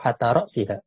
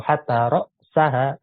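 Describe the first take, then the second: First: The noun is read with the genitive ending. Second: The noun is read with the accusative ending. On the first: "atau majrur"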